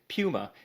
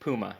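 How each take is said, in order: First: Puma is said with an unusual, foreign-sounding pronunciation. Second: Puma is said with the usual local pronunciation. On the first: This is how the friend from Germany said it. The speaker calls it wrong. "the way that he said Puma" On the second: This is how local speakers say it. The speaker calls it right. "instead of Puma"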